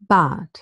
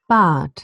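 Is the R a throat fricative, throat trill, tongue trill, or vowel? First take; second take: vowel; vowel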